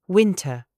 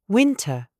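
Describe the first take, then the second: The two takes are said the same way.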